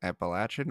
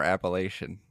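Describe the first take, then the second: First: "Appalachian" said as app-uh-LATCH-un; latch pronunciation. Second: "Appalachian" said as app-uh-LAY-shun; lay-shun pronunciation. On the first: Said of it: "is it called Appalachian?". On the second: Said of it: "the country way of saying". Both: Shown as a demonstration.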